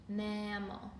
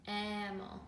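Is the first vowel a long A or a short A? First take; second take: short A; short A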